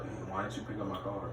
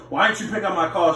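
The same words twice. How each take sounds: First: Very soft, low, meek question; lowered voice. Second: Higher, indignant demand; raised voice. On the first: Man told off by girlfriend asks about his call, lowered voice. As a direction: ask it timidly under your breath. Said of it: "First of all, lower your voice". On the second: Man confronting girlfriend about a missed call, raised voice. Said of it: "then you might raise your voice". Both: Acted.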